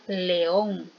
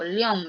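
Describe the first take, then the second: First: The two vowels are split into separate syllables. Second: The two vowels are merged into one syllable. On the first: The speaker calls it right. "Yo digo león" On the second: The speaker calls it wrong. "no digo león"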